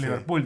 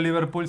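First: The name is said with a marked accent. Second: The name is said plainly, without the accent. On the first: The speaker calls it right. "que lo dijera así con acento" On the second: The speaker calls it wrong. "no Liverpool"

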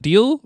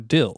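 First: The syllable has a long ee vowel. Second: The syllable has a short i vowel. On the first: The speaker calls it right. "Is it Deal or Dill?" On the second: The speaker calls it wrong. "Is it Deal or Dill?"

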